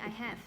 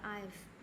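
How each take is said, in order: First: Both words are said fully and separately. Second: It is shortened into one syllable. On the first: The speaker calls it wrong. "thay vì I have" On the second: The speaker calls it right. "try to use contraction"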